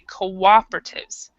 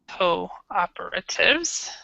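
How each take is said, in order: First: The first syllable is reduced and unstressed. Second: The first syllable 'co' is stressed and separate. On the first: "in American English we say cooperatives" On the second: "in British English cooperatives"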